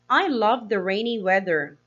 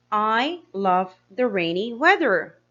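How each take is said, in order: First: Said in the usual way. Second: Slower, each word set out clearly; slow careful reading. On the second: Shown as a demonstration. Teacher rereading the example slowly to pupils. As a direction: read it slowly so children follow. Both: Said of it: "Henry said".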